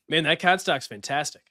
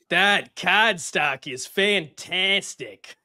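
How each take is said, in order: First: It has a natural, decent Boston accent. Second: It has an exaggerated, clownish Boston accent.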